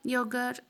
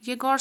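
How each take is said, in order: First: योगर said with an o sound, yo-gar; alternative pronunciation. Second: येगोर said with an e sound, ye-gor; correct pronunciation. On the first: Teacher showing the first way to say the name, योगर. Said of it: "आप इसको येगोर पढ़ो या योगर". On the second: Teacher giving the right Russian way to say येगोर. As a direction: read the name as येगोर, stressing the gor. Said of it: "right pronunciation येगोर ही है". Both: Shown as a demonstration.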